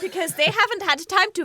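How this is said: It is said in a put-on German accent.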